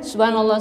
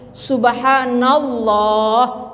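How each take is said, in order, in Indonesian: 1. Bunyi Allah di akhir diucapkan terpotong dan lemah. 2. Bunyi Allah di akhir diucapkan penuh dan jelas. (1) "Jangan ... nggak mantap tuh" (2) "sebutkan dengan lafaz yang betul. Ada alif lam jalalahnya"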